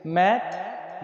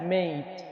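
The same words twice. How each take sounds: First: "मैट" with an open "ऐ", as in English mat; short A vowel. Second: "मेट" with a gliding "ए-ई", as in English mate; long A vowel. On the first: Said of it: "एक बार फिर पढ़ लेते हैं". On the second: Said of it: "ए ई पढ़ते हैं". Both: Shown as a demonstration.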